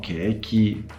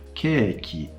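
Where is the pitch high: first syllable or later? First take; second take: later; first syllable. First: The pitch does not fall after the first syllable. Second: The pitch starts high and falls right away. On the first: The speaker calls it wrong. "It's not keiki" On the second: The speaker calls it right. "They start high and come down immediately, as in keiki"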